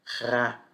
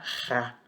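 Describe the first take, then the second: First: The syllable starts with a throaty h sound. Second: The same.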